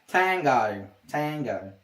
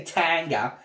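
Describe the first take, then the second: First: "tango" with a clear final "o"; "tango", ending on a full "oh"; right "tango". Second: "tanga" with a final "a" sound; wrong "tanga". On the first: Streamer correcting the word, "tango" with an "oh" ending. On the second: Streamer mocking a wrong way to say it, "tanga" ending in "uh". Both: Shown as a demonstration. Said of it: "I don't say tanga".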